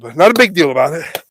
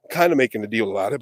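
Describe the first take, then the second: First: BIG lifted and leaned on; stress on BIG. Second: Said in the usual way. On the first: Real, not acted. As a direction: set BIG apart with a raised, punched delivery. Contrasts deal with big deal.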